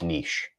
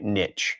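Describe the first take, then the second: First: The word ends with an 'sh' sound. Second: The word ends with a 'ch' sound. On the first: "it's the soft ch, so it's niche" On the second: "or even a tch sound"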